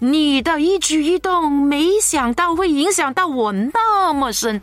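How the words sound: It is spoken in a formal, declamatory recitation tone. It sounds like reciting a text on stage. The speaker calls it wrong. "不是朗诵哦"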